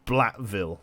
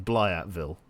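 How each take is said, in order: First: "Blatville" with a simple "bla", no y glide; "Blatville" read straight, without a "ya" sound; plain reading. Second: "Blyatville" with a "ya" glide after the L; corrected pronunciation. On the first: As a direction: say "Blatville" with a plain L before the vowel. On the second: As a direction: say "Blyatville" as "blyat", Russian-style. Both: Real, not acted. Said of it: "I mean Blyatville".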